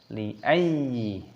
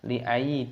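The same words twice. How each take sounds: First: The ya sound is doubled and pressed. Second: The ya sound is single and unpressed. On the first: The speaker calls it right. "kita masukkan, kita tekan, kita baca li ayyi" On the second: The speaker calls it wrong. "Tidak boleh kita baca li ayyi"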